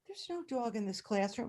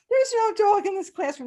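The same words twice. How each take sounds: First: Quiet denial. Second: Put-on high, loud sing-song children's chorus; kids chorusing. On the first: Retold or imitated. Teacher calmly denies to principal. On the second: Kids echoing teacher to the principal, chanting. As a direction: chant it back like a class of kids.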